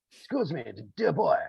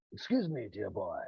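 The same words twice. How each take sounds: First: Put-on a fuller, more emphatic "Excuse me, dear boy"; old style English. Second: Quietly imitating an old-fashioned posh English gent; a soft, gentle "Excuse me, dear boy"; old style English. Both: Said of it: "very old style English".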